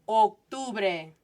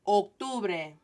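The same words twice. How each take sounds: The two takes are said the same way.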